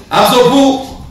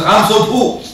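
First: Much higher, louder I'm so poor; exaggerated whiny excuse. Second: Higher, whining I'm so poor; mock pleading poor man; whiny excuse. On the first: The poor man repeats his excuse to the sheikh, hammed-up whine. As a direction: push the whine to a hammed-up plea. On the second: Preacher acts a man pleading poverty as his excuse, mock whine.

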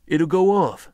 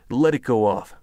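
First: Sharp, high warning shout; loud warning. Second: Said in the usual way. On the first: A narrator's reading. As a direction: bark it out in alarm. Tense standoff, rifle drawn.

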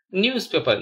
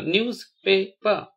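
First: Said in the usual way. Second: "newspaper" slowly as news, pa, per; syllable by syllable. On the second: Shown as a demonstration. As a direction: pause after each syllable of "newspaper". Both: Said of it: "spell the word".

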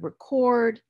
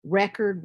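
First: RECORD as the verb, re-CORD, higher pitched; weak first syllable, punch CORD in record; stress on second syllable. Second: RECORD as the noun, REC-ord; stress on first syllable. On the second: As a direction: hit REC in record, weak second syllable. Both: Shown as a demonstration. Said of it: "the stress is gonna shift".

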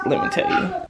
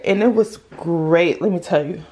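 First: 'let me tell you' swooped way up high; playful sing-song. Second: Said in the usual way. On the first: Real, not acted.

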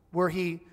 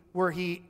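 Both takes have the same delivery.

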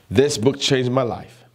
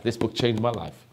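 First: "This book changed my life" slower and louder, hard stress on "This"; emphatic repeat. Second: Said in the usual way. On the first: Real, not acted. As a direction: punch "This", then draw out "changed my life".

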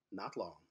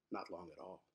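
First: Low, softer murmured reply; quiet ominous answer. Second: Much softer, lower, hollow repeat; near-whispered echo. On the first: Narrator answering his own question, low and quiet. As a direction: let it sink, softly. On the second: Narrator echoing the answer, much softer and darker. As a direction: fade it to a dark murmur. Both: A narrator's reading.

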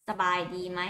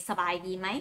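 Both takes have the same delivery.

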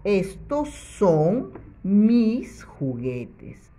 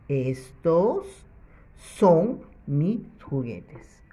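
First: Slow, clearly spaced reading; slow model sentence. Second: Slow repeat. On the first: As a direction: read it slowly so children follow. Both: Shown as a demonstration. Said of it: "para que diga".

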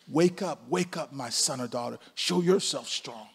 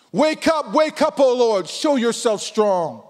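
First: Soft, calm, firm call; God's quiet reply. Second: Loud, high, pleading prayer cry; crying out to God. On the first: God answering the believer, softly and calmly. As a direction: gently urge the listener awake. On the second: Pastor praying aloud to God, loud pleading cry. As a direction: cry out to God, stretching the last words slowly. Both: Acted.

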